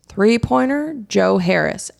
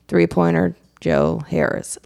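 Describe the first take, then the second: First: It is said with the most energy. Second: It is said with the least energy.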